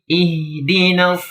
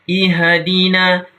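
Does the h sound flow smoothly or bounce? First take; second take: flows; bounces. First: The h flows smoothly into the next sound. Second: The h is given a bouncing echo. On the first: The speaker calls it right. "biarkan suara itu mengalir" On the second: The speaker calls it wrong. "Nggak boleh ... pantulan namanya"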